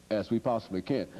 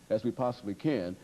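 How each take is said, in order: Both takes have the same delivery.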